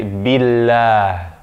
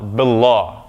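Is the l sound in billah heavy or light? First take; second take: light; heavy. First: The l is light, with a thin ah. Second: The l is heavy, with a deep ah. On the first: The speaker calls it right. "We say billah" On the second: The speaker calls it wrong. "we don't say"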